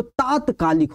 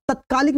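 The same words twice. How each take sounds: First: तात्कालिक with a long "taat"; teacher's correct model, तात्कालिक as "taatkaalik"; long first vowel. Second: तत्कालिक with a short "tat", pitched high; teacher's wrong example, तत्कालिक as "tatkaalik"; short first vowel. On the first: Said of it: "तो तात्कालिक हो जाता". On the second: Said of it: "नहीं होता". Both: Shown as a demonstration.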